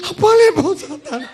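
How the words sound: It sounds like an intense, fervent prayer.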